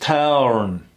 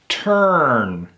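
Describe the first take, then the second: First: A separate vowel is heard before the r. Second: The t runs straight into the r sound. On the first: The speaker calls it wrong. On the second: The speaker calls it right. "We kill that U"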